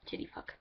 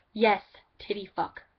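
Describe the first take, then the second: First: Unvoiced whispered repeat; breathed quiet take. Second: Louder full-voiced repeat; mock friend saying it out loud; voiced take. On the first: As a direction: whisper it under your breath. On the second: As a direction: say it out loud in the put-on voice. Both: Shown as a demonstration. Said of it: "I said that with a little bar".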